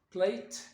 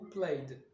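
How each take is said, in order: First: The word ends with a t sound. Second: The word ends with an id syllable. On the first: "soit t" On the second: "soit id"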